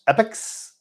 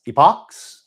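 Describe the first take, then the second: First: "epochs" said as EP-iks, high and questioning; alternative pronunciation. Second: "epochs" said as EE-pocks, long first E, rising; alternative pronunciation. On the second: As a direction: try "epochs" as EE-pocks, loud and questioning. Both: Shown as a demonstration. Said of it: "no idea how to pronounce it".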